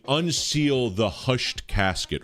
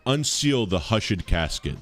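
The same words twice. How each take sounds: First: Said in the usual way. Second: Put-on hushed pronounced hush-ed, old poetic style; hushed said in two syllables. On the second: Shown as a demonstration. Streamer corrects the Keats line, saying hushed as hush-ed. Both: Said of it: "or, uh".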